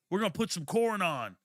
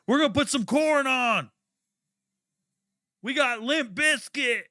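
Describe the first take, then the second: First: A hint of a chirpy teammate voice; barely voiced teammate offering music; lightly mocked teammates. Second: Much higher, louder mocking teammate voice; high goofy mock of the locker-room guys; mocking white teammates. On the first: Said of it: "They were out there". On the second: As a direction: parrot the teammates in a high silly voice. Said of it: "repeats teammates' line mockingly".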